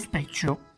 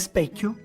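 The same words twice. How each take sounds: First: The middle consonant is a ch sound. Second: The middle consonant is a hard k sound. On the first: This is the Genoese dialect form. "dicono specchio" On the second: This is the standard Italian form. "per dire specchio"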